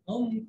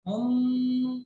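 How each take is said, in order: First: The m is short, with no held nasal sound. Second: The m is held long through the nose. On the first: The speaker calls it right. "फा होगा तो गुन्ना नहीं करेंगे" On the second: The speaker calls it wrong. "हुम ऐसे नहीं बोलना है"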